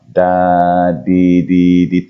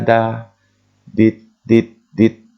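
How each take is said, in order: First: The final t is dropped and syllables run together. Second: Each syllable ends in t and stands apart.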